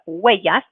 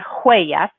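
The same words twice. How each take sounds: First: The word begins with no h sound. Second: The word begins with an audible h sound. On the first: The speaker calls it right. "but huellas" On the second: The speaker calls it wrong. "So it's not huellas"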